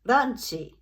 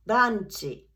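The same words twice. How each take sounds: The two takes are said the same way.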